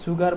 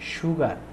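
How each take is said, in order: First: The first sound is a plain hissing s. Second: The first sound is a palatal sh. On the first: The speaker calls it wrong. "অনেকে সুগার বলেন" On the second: The speaker calls it right. "এটার উচ্চারণ হবে সুগার, মানে তালুবর স্বরমত উচ্চারণ হবে"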